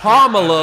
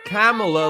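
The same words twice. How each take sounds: First: The first part sounds like comma. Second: The first part sounds like camel. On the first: The speaker calls it right. "It's Kamala like communist" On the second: The speaker calls it wrong. "it is not Kamala like camel toe"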